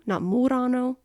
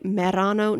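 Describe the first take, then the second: First: "Murano" said higher, with an "oo" as in "moo"; contrasting wrong name. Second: "Merano" said with an open "e" as in "met"; correct town name. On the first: Setting the Venice island apart, "Murano" said with "oo". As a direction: stress the "oo" in "Murano" to mark it as the wrong one. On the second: Listing towns, "Merano" said with a clear "meh". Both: Shown as a demonstration.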